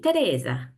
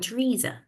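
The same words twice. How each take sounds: First: The name is said with an Italian accent. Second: The name is said with a British accent.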